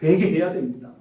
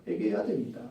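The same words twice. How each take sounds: First: Said in the usual way. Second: Soft echo. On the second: Real, not acted. Preacher urging young people, much softer echo.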